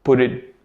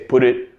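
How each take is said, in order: First: The T is a soft D-like sound. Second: The same.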